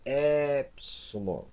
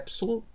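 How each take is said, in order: First: The vowel is stretched out long. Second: The vowel is said short and quick. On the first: The speaker calls it wrong. "Nada de esticar a pronúncia. Não é nada de chegar a dizer epsilon" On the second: The speaker calls it right. "Não, é epsilon"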